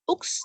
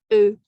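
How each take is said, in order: First: The word ends with a pronounced consonant sound. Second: The word ends on a rounded vowel, no consonant. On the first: The speaker calls it wrong. "bukan ux, x-nya nggak dibaca" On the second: The speaker calls it right. "tapi E"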